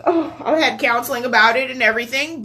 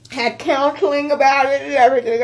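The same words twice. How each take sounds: First: Said in the usual way. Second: Real crying. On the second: Real, not acted. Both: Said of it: "I'm, like, boo-hoo crying".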